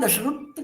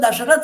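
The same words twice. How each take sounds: First: It uses an altered foreign pronunciation. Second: It uses the familiar Indian pronunciation. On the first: "उनके यहाँ दशरथ कहते हैं" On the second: "हम लोगों के यहाँ"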